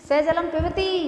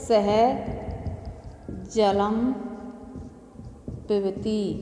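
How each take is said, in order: First: The last word gets heavy, forced stress. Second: All words are said evenly, without forced stress. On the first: The meaning gets distorted. The speaker calls it wrong. "कहीं हमने पिबती पर जबरदस्ती बलाघात कर दिया" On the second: It simply states that he drinks water. The speaker calls it right. "तो एक सीधा सा सार्थक अर्थ निकलता है"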